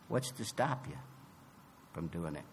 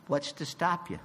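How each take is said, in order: First: Softer, lower echo of the question; quieter repeat. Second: Said in the usual way. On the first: Real, not acted.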